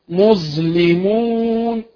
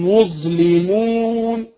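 No difference in how they are said.

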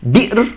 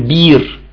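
First: The word has a glottal stop after the b. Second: The word has a long ee vowel, no stop. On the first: "هؤلاء ينطقونها بطريقة" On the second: "وبعضهم يقول بير"

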